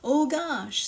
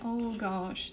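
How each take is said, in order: First: It is said in a happy, surprised tone. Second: It is said in a sad, downcast tone. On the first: The speaker is pleasantly surprised. "se eu tiver a expressão alegre, estou surpresa" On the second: The speaker is feeling sadness. "triste, vai expressar tristeza"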